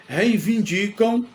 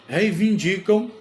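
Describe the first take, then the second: Both takes have the same delivery.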